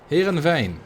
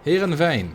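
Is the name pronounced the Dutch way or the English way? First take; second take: Dutch; Dutch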